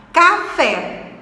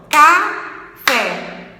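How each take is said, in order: First: Said in the usual way. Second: "café" very slowly split, ca, pause, fé; syllable by syllable. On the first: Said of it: "Quando a gente emite café". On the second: Shown as a demonstration. Teacher asking which syllable is stronger, "café" split slowly in two. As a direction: separate both syllables of "café" with a gap. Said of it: "qual que é a sílaba mais forte".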